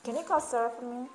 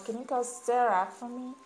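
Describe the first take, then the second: First: Quick, run-together American English demo; "Sarah for me" slurred quickly into one chunk; fast American speech. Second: Said in the usual way. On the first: Shown as a demonstration. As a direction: rattle it off like a fast-talking American. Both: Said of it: "des Américains qui vont parler très vite".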